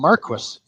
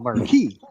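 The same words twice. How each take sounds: First: It has an English pronunciation. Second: It has a French pronunciation. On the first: "here they call them Marquis" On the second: "I would call them Marquis, right? With the French"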